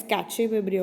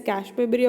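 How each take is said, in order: First: Cache said in two syllables, "kat-chay"; cache pronounced "katch-ay"; cache as "catchy". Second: Cache said "kash", one syllable; cache rhyming with "dash". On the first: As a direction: say cache with a ch and a final vowel. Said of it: "or sometimes you can call it as". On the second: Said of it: "pronounced as cache. You can call it as". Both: Shown as a demonstration.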